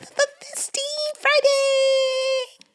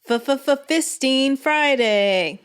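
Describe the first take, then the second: First: It is said in a high, childlike voice. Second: It is said in a lower, even voice.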